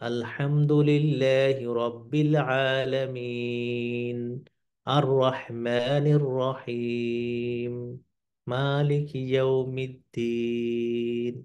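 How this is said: Each verse is separated by a clear pause. The recitation is careful and measured. The speaker calls it right. "এই যে প্রত্যেকটা আহ, আলাদা আলাদা করা আয়াতগুলোকে"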